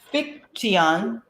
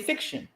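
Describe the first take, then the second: First: The middle is said with a plain 't' sound. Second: The middle is said with an 'sh' sound. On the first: The speaker calls it wrong. "you don't say um fiction" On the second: The speaker calls it right. "you say fiction"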